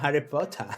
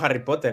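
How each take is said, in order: First: It is said with an English accent. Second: It is said with a Spanish accent. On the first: This is the way of saying it learned recently. The speaker calls it right. "ahora decimos Harry Potter" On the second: This is the old way of saying it. The speaker calls it wrong. "ahora no decimos Harry Potter"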